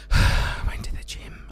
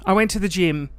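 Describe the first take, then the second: First: Breathy whisper of the line; whispered first take of a boast. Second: Said in the usual way. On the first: Shown as a demonstration. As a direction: say it under your breath.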